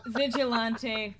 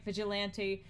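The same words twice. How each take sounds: First: Vigilante with an open AH in "lan"; drawn-out pronunciation. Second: Vigilante with a short A, as in "ant"; flatter-vowel pronunciation. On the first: Saying a word two ways, slow open-AH Vigilante. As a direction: stretch Vigilante out as vij-ih-LAHN-tee. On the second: Saying a word two ways, short-A vigilante. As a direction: say vigilante as vij-ih-LAN-tee. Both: Real, not acted.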